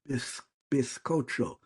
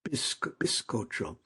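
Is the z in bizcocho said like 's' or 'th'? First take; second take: th; s. First: The z is said like English th. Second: The z is said like English s. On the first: This is how most of Spain says it. "in most areas in Spain today, today is pronounced like a T H" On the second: This is how most of South America says it. "in most areas in South America, but not all, it's pronounced like an like an S"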